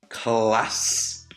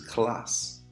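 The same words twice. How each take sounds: First: It is said in a drawn-out Geordie accent. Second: It is said in a plain standard accent.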